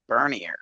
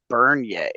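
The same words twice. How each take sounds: First: The name is said with an anglicized pronunciation. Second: The name is said with a French pronunciation. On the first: This pronunciation hides the French origin. "So I would always say it Bernier" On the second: This is the true pronunciation of the name. "my real last name is Bernier"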